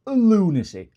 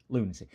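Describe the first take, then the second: First: High, loud, falling LUNACY; incredulous outburst. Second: Said in the usual way. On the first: Real, not acted. Shopper balks at perfume price, incredulous outburst. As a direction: exclaim LUNACY in disbelief, pitched right up.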